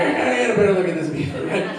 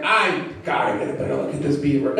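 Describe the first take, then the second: First: Fast and laughing, the line redone with a grin; quick laughing retake. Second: Deadpan line. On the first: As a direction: rush it through a laugh. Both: Shown as a demonstration. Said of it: "I should change the wording".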